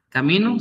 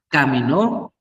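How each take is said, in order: First: The stress is not on the last syllable. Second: The stress is on the last syllable. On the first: It is not the past-tense verb. "sin acento" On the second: It is the past-tense verb. "Cuando lleva acento, lleva el énfasis en esa letra"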